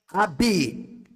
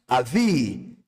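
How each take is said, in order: First: The middle consonant is a hard b sound. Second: The middle consonant is a soft v sound.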